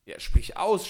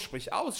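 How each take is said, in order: First: High, loud eager cry; urgent shout, rising at the end; cried out. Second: High-pitched repeated plea; eager repeat, pitched up; cried out. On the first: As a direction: shout it out impatiently. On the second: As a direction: press again, urgently. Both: A narrator's reading. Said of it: "schrie Chasid".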